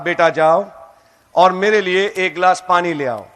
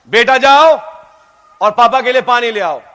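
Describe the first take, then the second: First: It is said at a normal volume. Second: It is said loudly, almost shouted.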